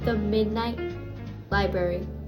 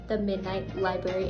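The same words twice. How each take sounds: First: The title is said more loudly. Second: The title is said at normal volume.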